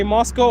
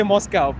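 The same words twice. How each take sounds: First: Moscow ending in a long "oh" sound; Moscow with "koh". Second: Moscow with the last syllable rhyming with "cow". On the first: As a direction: say Moscow as MOS-koh, no "cow" in it. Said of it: "just say Moscow or Moskva". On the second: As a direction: say Moscow as MOS-cow, the mistaken way. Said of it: "You don't pronounce it like a cow". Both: Shown as a demonstration.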